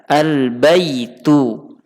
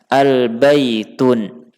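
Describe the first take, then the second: First: The word ends in a plain vowel. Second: The word ends with an n sound. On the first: The speaker calls it right. "maka dibaca dengan al-baitu" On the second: The speaker calls it wrong. "Tidak dibaca dengan al-baitun"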